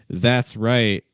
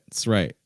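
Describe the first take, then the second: First: The first word is said fully and clearly. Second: The first word is reduced to a short sound. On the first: "that's a clear way of saying it" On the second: "So you can reduce that"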